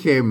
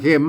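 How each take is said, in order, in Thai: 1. คำนี้ไม่ได้ออกเสียงจัตวา 2. คำนี้ออกเสียงจัตวา (1) "ไม่ใช่" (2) "มันเสียงจัตวานะครับ"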